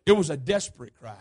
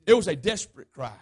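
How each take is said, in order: Both takes have the same delivery.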